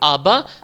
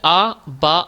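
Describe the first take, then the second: First: The two syllables are joined without a break. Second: The two syllables are said separately with a break. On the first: "अब इन्हें एक साथ पढ़ेंगे" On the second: "अलग अलग पढ़ लिए"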